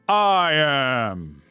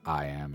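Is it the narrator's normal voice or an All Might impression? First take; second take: All Might; normal voice. First: It is said in an All Might impression. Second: It is said in the reader's normal voice.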